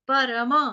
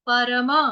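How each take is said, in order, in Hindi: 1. यह संस्कृत के ढंग से बोला जाता है। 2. यह संस्कृत के ढंग से बोला जाता है।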